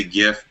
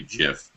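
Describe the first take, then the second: First: "gif" with a hard G, as in gift. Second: "gif" with a soft G, like "jif". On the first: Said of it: "I say gif". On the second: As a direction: say "gif" as if spelt with a J. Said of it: "it's supposed to be gif". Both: Shown as a demonstration.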